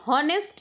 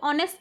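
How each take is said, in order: First: The word begins with an h sound. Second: The word begins directly with a vowel sound. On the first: The speaker calls it wrong. "हॉनेस्ट नहीं होता है" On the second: The speaker calls it right. "वो ऑनेस्ट होता है"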